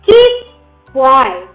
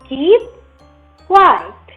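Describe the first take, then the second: First: The pitch falls from very high to very low. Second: The pitch falls from mid to very low.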